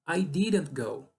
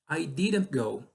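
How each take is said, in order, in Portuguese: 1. O T em didn't é totalmente omitido. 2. O T em didn't é totalmente omitido.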